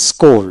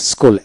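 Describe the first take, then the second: No difference in how they are said.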